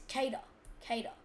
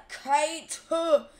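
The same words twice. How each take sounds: First: Cater with the t softened to a d; unpushed soft t. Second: Cater loud, with an exploded t; pushed hard t. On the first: Gamer showing the Australian way, soft cater. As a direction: say cater lightly, like cay-da. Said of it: "You're not pushing so". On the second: Gamer showing how not to say it, overpushed cater. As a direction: hit both halves of cater hard. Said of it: "You don't put, like". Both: Shown as a demonstration.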